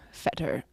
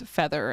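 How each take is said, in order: First: The middle consonant is a hard 't' sound. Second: The middle consonant is a soft 'th' sound.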